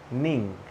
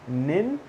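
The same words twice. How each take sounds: First: NING with falling tune, full NG; NING ending on NG. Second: NIN with rising tune, no G; NIN ending on N. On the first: Teacher contrasting the endings of morning, NING on NG. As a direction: close NING at the back of the mouth. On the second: Teacher contrasting the endings of morning, NIN on N. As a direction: end NIN on a plain N. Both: Shown as a demonstration. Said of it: "two different ways".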